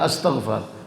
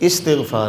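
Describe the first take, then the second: First: The word begins with an 'a' vowel. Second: The word begins with an 'i' vowel. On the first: The speaker calls it wrong. "लोग कहते हैं अस्तग़फ़ार, अस्तग़फ़ार नहीं है" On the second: The speaker calls it right. "हमज़ा की ज़ेर के साथ इस्तिग़फ़ार"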